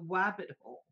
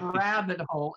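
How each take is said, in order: First: The first word begins with a W sound. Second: The first word begins with a clear R sound. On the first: The speaker calls it right. "It's down the wabbit hole" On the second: The speaker calls it wrong. "It's not rabbit hole"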